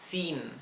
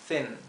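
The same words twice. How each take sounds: First: The vowel is a Spanish-style clear 'i'. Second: The vowel is a lax, more muted English 'i'. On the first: The speaker calls it wrong. "Si lo leyéramos en español diríamos thin" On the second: The speaker calls it right. "pero es thin"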